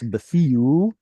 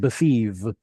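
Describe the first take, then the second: First: The word ends with oo and no h. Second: The word ends with a v sound. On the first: The h has been lost. "hey being a soft letter easily gets swallowed up" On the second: This is the modern form. "We went from an oo sound to a v"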